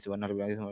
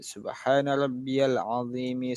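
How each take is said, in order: First: It is recited hurriedly without pauses. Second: It is recited calmly with pauses. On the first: The speaker calls it wrong. "Jangan terlalu terburu-buru. Tidak ada jeda" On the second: The speaker calls it right. "Berhenti sejenak"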